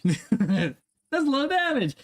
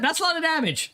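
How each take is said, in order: First: Slow, stretched meme line; drawn-out meme quote. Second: Said in the usual way. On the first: Acted. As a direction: drag it out like the famous meme. Repeats meme line twice.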